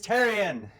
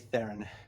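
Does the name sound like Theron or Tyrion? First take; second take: Tyrion; Theron. First: The name sounds like Tyrion. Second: The name sounds like Theron. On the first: This is the name as its owner says it. The speaker calls it right. "Ah, it's Tyrion!" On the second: The name is mispronounced by others. The speaker calls it wrong. "They'd probably get my name wrong too"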